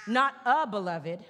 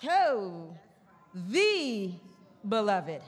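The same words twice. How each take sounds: First: "a" pointed and rising; mock wrong reading "a beloved"; stress on A. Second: "the" drawn apart before beloved; right reading "the beloved"; stress on THE. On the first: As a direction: contrast "a" against "the". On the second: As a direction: savour "the". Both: Shown as a demonstration. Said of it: "Articles matter".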